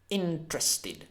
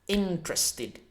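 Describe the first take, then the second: The two takes are said the same way.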